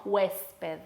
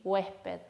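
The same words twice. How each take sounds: First: "huésped" with a clear hissed s before the p; careful, sibilant s in "huésped"; fully pronounced S. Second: "Huésped" with the s softened to an h; aspirated S. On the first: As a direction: sound the s distinctly in "huésped". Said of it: "no huésped". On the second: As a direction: let air replace the s in "Huésped". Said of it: "decimos huésped". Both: Shown as a demonstration.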